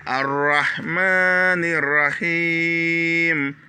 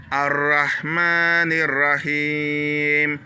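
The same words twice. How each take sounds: First: Ar-Rahmanir Rahim with ma and hi held long; slow lengthened recitation; long vowels. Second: Ar-Rahmanir Rahim with ma and him stretched; slow repeated recitation; long vowels. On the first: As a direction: draw out ma and hi slowly. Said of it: "on tire le ma". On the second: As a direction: hold the long syllables slowly. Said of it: "c'est une longue syllabe également". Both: Shown as a demonstration.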